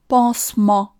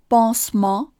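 The two takes are said the same way.

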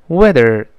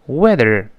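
Both takes have the same delivery.

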